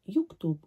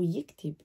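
First: The first vowel is a rounded u sound. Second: The first vowel is a close i sound. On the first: "could be pronounced yuktub or yiktib in a dialect" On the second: "could be pronounced yuktub or yiktib in a dialect"

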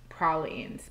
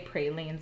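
First: The word is said in the New Orleans way. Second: The word is said in the Wisconsin way. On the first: "I believe she says pralines" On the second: "I'm from Wisconsin. We say pralines"

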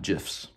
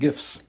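First: The word starts with a j sound. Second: The word starts with a hard g sound. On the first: The speaker calls it wrong. "not GIFs. That's peanut butter" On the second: The speaker calls it right. "have fun making GIFs"

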